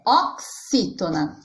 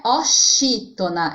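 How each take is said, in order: First: Oxítona said ok-SÍ-to-na, slow and careful. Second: Oxítona wrongly said o-SHÍ-to-na. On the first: Teacher giving the correct form, oxítona with KS. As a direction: slowly say oxítona with a clear ks for the x. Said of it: "é oxítona". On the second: Teacher warning pupils what it is not, oxítona with SH. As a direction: say oxítona with a sh sound for the x. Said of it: "lembrando que não é oxítona". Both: Shown as a demonstration.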